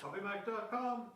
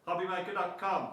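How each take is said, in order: First: It is said quietly and muffled. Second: It is said loudly and projected.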